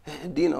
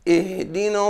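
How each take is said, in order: First: The word starts directly without an initial vowel. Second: The word starts with a short 'i' vowel. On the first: The speaker calls it wrong. "لا ينطقون بالهمزة في بدايتها هكذا" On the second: The speaker calls it right. "فتؤخذ حركة الهمزة من حركة الدال فتنطق هكذا"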